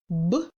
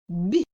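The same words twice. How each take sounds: First: The consonant is hard, not palatalized. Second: The consonant is soft, palatalized.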